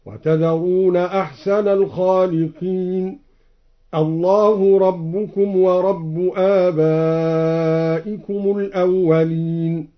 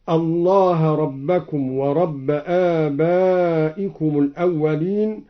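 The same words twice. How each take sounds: First: "الله ربكم ورب" as Allahu rabbukum wa rabbu; slow recitation with u endings on "الله" and "ورب"; nominative u endings. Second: Said in the usual way. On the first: Shown as a demonstration. Reciter showing Al-Duri, "الله ربكم" as Allahu rabbukum. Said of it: "قرأ الدوري برفع لفظ الجلالة".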